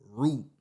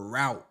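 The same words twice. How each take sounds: First: Route with a long "oo", rhyming with boot; "root" pronunciation. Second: Route with an "ow", rhyming with out; "rowt" pronunciation. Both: Shown as a demonstration. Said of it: "How would you say it?".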